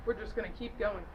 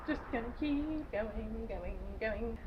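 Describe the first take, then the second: First: Said in the usual way. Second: Slowed way down, fading softer; slow fading drone. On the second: Shown as a demonstration. Moving the recap along, a slow fading drone. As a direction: let it drift off slowly into nothing.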